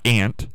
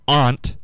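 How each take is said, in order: First: Ant with the flat a of "cat"; "ant" pronunciation. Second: Aunt said "ahnt"; "ahnt" pronunciation. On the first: Host rejecting the other way, ant as the insect. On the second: Host adding another word, aunt as "ahnt". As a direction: open ah vowel in aunt. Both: Shown as a demonstration. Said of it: "not ant".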